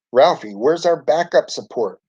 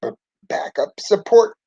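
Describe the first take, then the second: First: Understated storybook shout, pitched higher. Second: Faltering, high-pitched weak voice. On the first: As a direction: call urgently for help without real volume. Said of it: "Dorothy Ann shouted". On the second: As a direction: stammer it feebly, pitched well up. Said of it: "Ralphie said weakly". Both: A narrator's reading.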